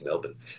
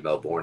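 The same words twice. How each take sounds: First: It is said the way locals say it. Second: It is said the way Americans say it. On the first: The speaker calls it right. "but it's Melbourne" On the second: The speaker calls it wrong. "People in the States would say Melbourne if they didn't know better"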